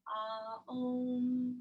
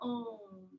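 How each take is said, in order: First: The word is drawn out into two syllables. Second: The word is said as a single syllable. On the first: "like there's more than one syllable" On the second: "or Om"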